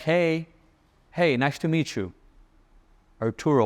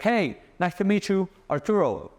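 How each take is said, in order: First: The greeting sounds calm and relaxed. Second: The greeting sounds loud and overexcited.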